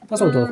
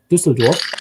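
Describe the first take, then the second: First: The name is said with an English-style pronunciation. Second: The name is said with a German-style pronunciation. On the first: "now I say it with an uh, accent" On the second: "it's actually uh, Düsseldorf"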